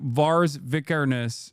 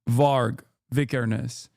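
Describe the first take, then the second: First: The first name ends with an s sound. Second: The first name ends with a g sound. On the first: The speaker calls it wrong. "I'm saying it wrong" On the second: The speaker calls it right. "Is Varg, not Vars?"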